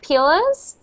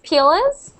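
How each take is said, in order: The two takes are said the same way.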